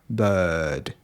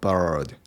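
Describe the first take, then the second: First: The vowel is a schwa without R. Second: The vowel is said with an R sound. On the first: The speaker calls it right. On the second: The speaker calls it wrong.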